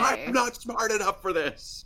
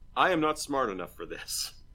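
First: It is yelled loudly. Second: It is said at a normal, even volume.

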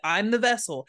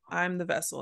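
First: It is yelled loudly. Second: It is said at a normal volume.

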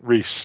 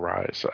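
First: The name is said like 'Reese'. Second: The name is said like 'rise'. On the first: The speaker calls it right. "I'm saying it correctly this time" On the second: The speaker calls it wrong. "Or Rise"

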